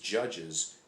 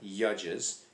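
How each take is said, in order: First: The word begins with a J sound. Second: The word begins without a J sound. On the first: The speaker calls it right. "it's judges" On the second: The speaker calls it wrong. "It's not Yudges"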